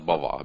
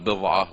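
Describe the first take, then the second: First: The first vowel is an 'a' sound. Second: The first vowel is an 'i' sound. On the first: "وبفتح" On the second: "بكسر الباء"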